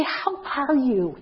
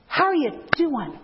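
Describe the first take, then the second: First: Slow, drawn-out how are you; gentle how are you. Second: How are you doing with a warm punchy lift; Clinton-style greeting. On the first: Woman greeting a visitor at the door, slow gentle. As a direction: ease into the greeting slowly. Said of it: "if you're a woman, you'd say". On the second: Speaker demonstrating Clinton's greeting to greeters, punchy friendly. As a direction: give the greeting a little oomph. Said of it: "just that little oomph". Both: Shown as a demonstration.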